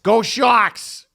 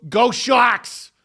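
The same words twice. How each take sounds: First: Loud cheer, pitch up; cheering fan. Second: Cheering fan. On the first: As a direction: shout it like a proud fan in a hotel lobby. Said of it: "they said it like that". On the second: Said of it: "one of them goes". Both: Retold or imitated.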